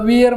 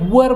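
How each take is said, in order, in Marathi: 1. स्वर 'ear' मधल्यासारखा वाटतो. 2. स्वर 'fur' मधल्यासारखा वाटतो. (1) "विअर म्हणायचं नाही" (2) "वर म्हणायचं"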